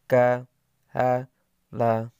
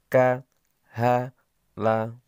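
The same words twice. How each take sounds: No difference in how they are said.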